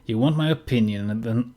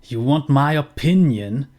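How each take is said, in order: First: New father voice. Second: Father voice pitched a bit up and louder, mocking; first take of the father, brighter and pushier. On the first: Acted. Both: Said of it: "Ich bin mit der Stimme jetzt inzwischen in eine Richtung gegangen".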